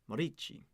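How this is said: The name has an Italian pronunciation. "the Italian way"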